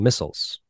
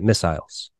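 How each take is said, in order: First: The word is said in the speaker's own accent. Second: The word is said with an English pronunciation.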